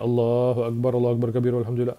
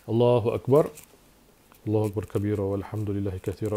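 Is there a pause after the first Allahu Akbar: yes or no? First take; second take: no; yes. First: It runs on without a pause after the takbir. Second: There is a short pause after the first takbir.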